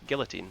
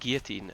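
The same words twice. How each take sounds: First: The L sounds in the word are pronounced. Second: The L sounds in the word are silent. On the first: This is the local British way of saying it. The speaker calls it right. "and it's guillotine" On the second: This is the American way of saying it. The speaker calls it wrong. "the Americans call it guillotine"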